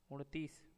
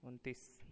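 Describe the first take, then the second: First: उनतीस with a curled-back n; उनतीस with retroflex n; regional mispronunciation. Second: Said in the usual way. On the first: Shown as a demonstration. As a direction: say उनतीस as "uṇ-tees". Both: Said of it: "अपने क्षेत्र में प्रचलित प्रयोग".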